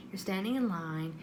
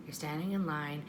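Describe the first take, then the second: No difference in how they are said.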